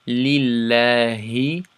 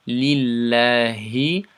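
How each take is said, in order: No difference in how they are said.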